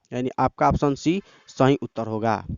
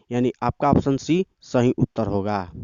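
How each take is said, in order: The two takes are said the same way.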